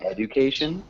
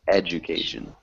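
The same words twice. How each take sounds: First: The middle consonant is a plain d sound. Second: The middle consonant is a j sound. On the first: The speaker calls it wrong. "instead of saying education" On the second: The speaker calls it right.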